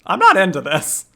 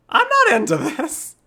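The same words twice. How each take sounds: First: Loud, higher-pitched objection; mock protest. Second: Very high, drawn-out loud squeal; squealed mock protest. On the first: Streamer refusing a game character's advance, loud mock protest. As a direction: protest firmly, hamming it up. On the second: Streamer refusing a game character's advance, squealed mock protest. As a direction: escalate into a slow, panicky squeak. Repeats protest, higher and slower.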